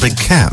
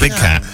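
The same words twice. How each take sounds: First: The stress falls on the word cat. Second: The stress falls on the word big. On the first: A large domestic cat. "but a big cat. The inflection there" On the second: A wild feline such as a lion. "not like a big cat"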